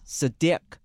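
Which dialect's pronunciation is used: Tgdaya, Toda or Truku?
Toda. The name is said in the Toda dialect form.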